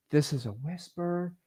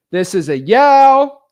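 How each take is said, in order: First: Soft, slow, airless whisper. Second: Slow, much higher, full-volume yell. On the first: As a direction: breathe the words with no voice. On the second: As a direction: shout it out across the room. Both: Shown as a demonstration.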